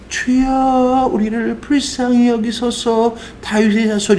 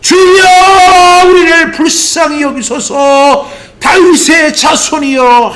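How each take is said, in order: First: It is said quietly, at normal volume. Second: It is shouted loudly with full force.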